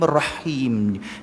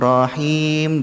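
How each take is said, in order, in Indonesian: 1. Bunyi r dobel dan ditahan lebih lama. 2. Bunyi r tunggal dan pendek. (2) "Dia tidak ada sabdu kat situ"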